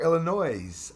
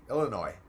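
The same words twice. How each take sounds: First: "Illinois" ending in an audible Z; S sounded in Illinois. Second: "Illinois" ending on an open "noy"; silent S in Illinois. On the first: Streamer unsure of the state's name, "Illinois" said with a sounded S. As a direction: say "Illinois" with the final S voiced like "noise". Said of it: "wonder how you, you pronounce it properly". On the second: Streamer checking the proper way, "Illinois" said with silent S. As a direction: say "Illinois" with no S sound at the end. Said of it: "pronounce it properly". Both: Shown as a demonstration.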